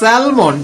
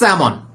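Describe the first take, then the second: First: The L sound is pronounced in the word. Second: The L sound is silent in the word. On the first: The speaker calls it wrong. "salmon যেটা আমরা বলি" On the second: The speaker calls it right. "Correct pronunciation হচ্ছে salmon. Here silent L"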